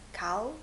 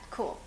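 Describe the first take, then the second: First: The name is said like the word cow. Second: The name is said like the word cool. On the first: Other people say the name this way. The speaker calls it wrong. "they're like, cow, cow" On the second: The owner of the name says it this way. The speaker calls it right. "I told them just cool"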